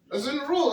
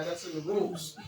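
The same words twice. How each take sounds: First: Emphatic insist. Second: Said in the usual way. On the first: Real, not acted.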